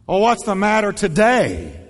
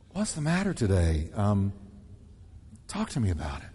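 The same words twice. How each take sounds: First: Brisk and a bit loud; bright concern. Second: Much softer and lower, tender; gentle concern. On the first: Pastor demonstrates a careless tone to the congregation. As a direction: ask it like you're only half interested. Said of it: "The tone you choose". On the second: Pastor demonstrates a loving tone to the congregation. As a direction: draw them out softly and kindly. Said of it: "Or the tone you use". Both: Shown as a demonstration.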